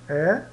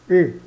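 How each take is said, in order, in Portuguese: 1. Pronuncia-se aberta, com a boca mais larga. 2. Pronuncia-se fechada, com a boca mais estreita. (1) "ele vai ter som aberto" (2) "ou um som fechado"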